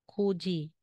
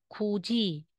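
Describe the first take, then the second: Both takes have the same delivery.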